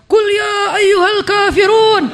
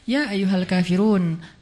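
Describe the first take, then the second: First: It is recited in a combative tone. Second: It is recited in a gentle tone.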